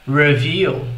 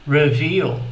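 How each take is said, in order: The two takes are said the same way.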